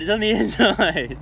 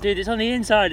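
First: Louder, higher, breaking into a laugh; laughing repeat of the same line to the cleaner. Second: Louder, higher exasperated call; exasperated shout at the car cleaner. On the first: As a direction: repeat it while cracking up. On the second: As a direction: tell the cleaner off, half shouting. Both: Retold or imitated. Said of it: "and I'm like".

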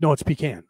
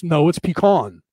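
First: Pecan said pee-KAN; countering with pecan as "pee-KAN"; own-style pecan. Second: Pecan said pee-KAHN; correcting someone with pecan as "pee-KAHN"; East Coast pecan. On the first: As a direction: insist on pecan with the A of "can". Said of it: "I call it pecan". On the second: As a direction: insist on pecan with a broad AH. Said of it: "People get annoyed with me in the back east". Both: Retold or imitated.

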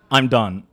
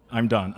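First: "I'm done" blurted louder, falling hard; exasperated. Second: Said in the usual way. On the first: Acted. Poet fed up with mispronounced names, declaring loudly.

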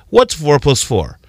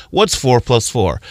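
First: Slow, patient teacher question, What's four plus four? asked kindly; a light teacher voice putting What's four plus four? to the class; teacher asking. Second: Slow, dazed What's four plus four? in an altered voice; a mildly dazed voice for What's four plus four?; lost kid wondering. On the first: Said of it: "When a teacher asks you". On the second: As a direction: puzzle over What's four plus four? like a kid who never learned. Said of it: "keep walking around this earth thinking". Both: Retold or imitated.

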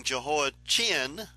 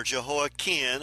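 First: "Jehoiachin" with CH sounded as in chin. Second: "Jehoiakim" with the CH hard, ending like "kin". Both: Shown as a demonstration. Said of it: "however you want to pronounce that C H".

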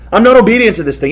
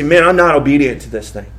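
First: Faster and louder, "not" hit hard; emphatic repeat. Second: Said in the usual way. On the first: Shown as a demonstration. Pastor voicing a convicted man, faster, louder, "not" punched. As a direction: fire the line back quicker, punching "not".

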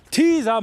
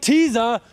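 First: Teaser called out high and loud with a falling end; emphatic Teaser. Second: Said in the usual way. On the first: Shown as a demonstration. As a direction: punch Teaser as if correcting him. (Teaser laut und hoch betont, fallend) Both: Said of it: "Teaser, Mann".

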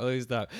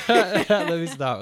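First: Said in the usual way. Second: Bursting into laughter mid-sentence; high, loud laugh through the words, slowly. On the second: Real, not acted. Laughing at himself, trying to stop.

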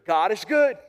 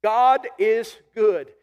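First: Said in the usual way. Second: Slow, weighty God is good; drawn-out proclamation God is good; slow emphatic declaration. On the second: Shown as a demonstration. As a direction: lean on every word. Preacher repeats key phrase.

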